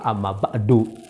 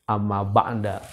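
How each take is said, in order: First: The last word ends with a u vowel. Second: The last word ends with an a vowel. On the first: "yang tepat itu adalah amma ba'du" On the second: "Boleh sebenarnya"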